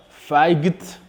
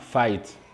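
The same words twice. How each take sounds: First: A g sound is pronounced in the word. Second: No g sound is pronounced in the word. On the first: The speaker calls it wrong. "On ne dit pas" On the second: The speaker calls it right. "nous prononçons simplement"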